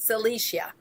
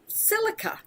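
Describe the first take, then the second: First: The word ends with a 'see-ah' sound. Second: The word ends with a 'ka' sound. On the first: "sometimes pr people pronounce it silicia" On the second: "The next one is silica"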